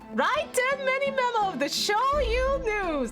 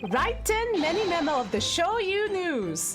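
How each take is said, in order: First: It is read in a put-on Australian accent. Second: It is read in the speaker's ordinary accent.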